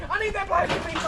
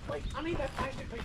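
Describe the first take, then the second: First: High insistence. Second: Softer, fast coaxing; hushed and quick. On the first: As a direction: pitch up and insist. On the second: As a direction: quickly coax it under your breath. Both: Real, not acted. Pleading with pig for plastic.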